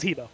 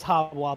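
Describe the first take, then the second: First: The name ends with a 'bo' sound. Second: The name ends with a 'bwa' sound. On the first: This follows the spelling on screen. "but it says Hebo" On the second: This is the proper pronunciation. "the proper pronunciation is Habwa"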